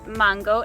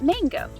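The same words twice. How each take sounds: First: The word is said with a Spanish pronunciation. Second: The word is said with an English pronunciation. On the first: The speaker calls it right. "or mango" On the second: The speaker calls it wrong. "not mango"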